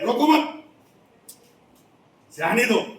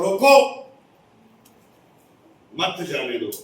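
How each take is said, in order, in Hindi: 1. विराम 'mat' के ठीक बाद आता है। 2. विराम 'roko' के ठीक बाद आता है। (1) "आप बोलोगे जा भाई जा" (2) "ए भाई रुक, सर ने जाने के लिए मना किया"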